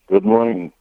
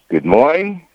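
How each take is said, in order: First: It is said in a somber, flat tone. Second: It is said in a brighter, more cheerful tone.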